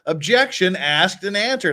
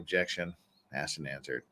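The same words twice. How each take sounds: First: It is said in an indignant, exasperated tone. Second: It is said in a flat, routine tone. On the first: The other side seems to be wasting time. The speaker calls it right. "with that indignant tone of voice" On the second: The lawyer seems to be just interrupting. The speaker calls it wrong. "if he was just sitting there"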